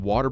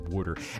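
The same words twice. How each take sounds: First: It is said in a general American accent. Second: It is said with a Philadelphia vowel shift.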